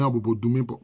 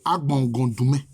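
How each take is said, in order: First: The first word is said as Abobo. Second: The first word is said as Agbongon. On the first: It sounds like a locality of the Bobo subgroup. The speaker calls it wrong. "ordinairement, les gens prononcent Abobo Doumé" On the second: It means the beach of the warriors. The speaker calls it right. "Donc c'est Agbongon Doumé"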